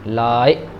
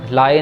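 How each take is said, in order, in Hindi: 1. लंबे स्वर के बाद एक छोटा स्वर आता है। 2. यह एक ही छोटे स्वर जैसा सुनाई देता है। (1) "पहले में लंबी साउंड है और ईडी में छोटी साउंड है" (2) "लाए नहीं पढ़ना"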